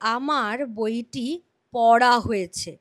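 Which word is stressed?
পড়া. The stress falls on the word পড়া. The sentence is in the impersonal voice, focused on the action. "আর যদি পড়ার ওপর জোর পড়ে তাহলে ভাববাচ্য।"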